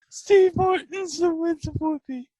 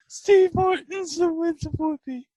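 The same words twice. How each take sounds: First: It is said with a straight face. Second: It is said with a straight face.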